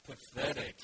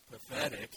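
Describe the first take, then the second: First: Drawn-out, breathy, gloomy Pathetic; slow Eeyore. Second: A lighter, quicker Pathetic, still gloomy; Eeyore again. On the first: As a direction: let Pathetic sag out slowly with no energy. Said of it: "you have to read it slowly". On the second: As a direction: say Pathetic plainly with a trace of gloom. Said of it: "You can't read Eeyore with energy". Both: Shown as a demonstration.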